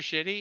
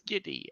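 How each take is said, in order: First: The name begins with a 'sh' sound. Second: The name begins with a 'sk' sound. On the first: The speaker calls it wrong. "I've been saying his name all wrong" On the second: The speaker calls it right. "I mean, it's Skitty"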